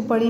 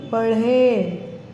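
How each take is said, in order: First: पढ़ी ending in an ee sound; wrong ee ending. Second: पढ़े drawn out on a final e, as in badi ye; long e ending. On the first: Teacher showing pupils the mistaken reading, पढ़ी ending in ee. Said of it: "इसको पढ़ी नहीं पढ़ेंगे". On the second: Teacher showing pupils the proper reading, पढ़े ending in long e. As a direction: hold the closing e of पढ़े slowly. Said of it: "इसको पढ़ेंगे पढ़े". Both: Shown as a demonstration.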